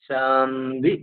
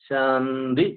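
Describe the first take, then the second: The two takes are said the same way.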